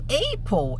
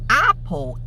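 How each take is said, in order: First: The first vowel is a flat, front a. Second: The first vowel is a more open a. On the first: "Apple é bem americano" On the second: "Apple é mais britânico"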